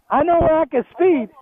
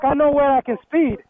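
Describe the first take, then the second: First: Repeated louder and higher, "speed" leaned on hard; emphatic repeat. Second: Said in the usual way. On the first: Shown as a demonstration. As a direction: hammer it home the second time, punching "speed".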